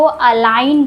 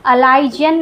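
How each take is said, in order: First: Said in the usual way. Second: अलाइजन with the G sounded as j; wrong pronunciation. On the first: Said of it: "पढ़ते हैं". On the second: Shown as a demonstration. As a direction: say अलाइजन with a j before the final n. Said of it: "नहीं पढ़ते हैं".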